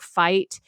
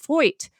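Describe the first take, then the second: First: The vowel sounds like the modern 'eye'. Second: The vowel sounds like 'oy'.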